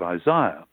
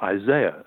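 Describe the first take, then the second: First: It is pronounced the British way. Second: It is pronounced the American way.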